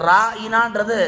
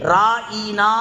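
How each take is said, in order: First: The word is said lightly and softly. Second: The word is said with extra pressure. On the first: It means turn towards us. The speaker calls it right. "Lace மாசா சொல்லாம" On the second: It mocks the listener as a shepherd. The speaker calls it wrong. "கொஞ்சம் அழுத்தி"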